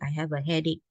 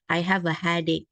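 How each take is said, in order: First: The first vowel of headache sounds like 'eh'. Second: The first vowel of headache sounds like 'ah'. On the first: This is the intended pronunciation. The speaker calls it right. "It's actually" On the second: This is a common learner mispronunciation. The speaker calls it wrong. "I hear this very often"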